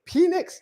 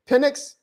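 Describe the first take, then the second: First: "Penix" as PEE-nix, high and questioning; questioned pronunciation. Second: "Penix" as PIN-ix, high and questioning; questioned pronunciation. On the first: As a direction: ask "Penix" with a long ee. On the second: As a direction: ask "Penix" with a short first vowel. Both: Shown as a demonstration. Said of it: "the proper way to pronounce this dude's name".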